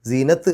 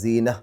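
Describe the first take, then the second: First: The word ends with a t sound. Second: The word ends on an open vowel sound. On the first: The speaker calls it wrong. "എന്നല്ല" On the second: The speaker calls it right. "സീന എന്ന് പറഞ്ഞിട്ടാണ് നിർത്തുക"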